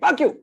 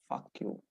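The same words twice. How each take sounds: First: It is said harshly, like a real insult. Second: It is said softly and playfully, like teasing. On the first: The speaker is annoyed and telling her off. The speaker calls it wrong. "I don't say fuck you" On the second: The speaker is teasing her with a hidden suggestion. The speaker calls it right. "in a very subtle way"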